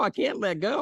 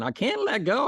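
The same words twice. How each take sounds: First: High, fading I can't let go; lightly acted panic; whiny refusal again. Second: Much higher, pleading I can't; acted panic; whiny refusal. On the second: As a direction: repeat it like a scared child. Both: Man keeps refusing.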